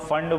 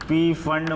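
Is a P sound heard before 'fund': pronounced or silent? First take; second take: silent; pronounced. First: The word starts directly with 'fund'. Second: A P sound is said before 'fund'. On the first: The speaker calls it right. "इसको हम लोग फंड बोलते हैं" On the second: The speaker calls it wrong. "पी फंड मत बोलना इसको"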